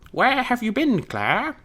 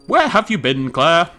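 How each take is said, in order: First: It is said in a geeky put-on voice. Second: It is said in an ordinary voice.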